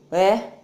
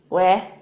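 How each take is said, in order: No difference in how they are said.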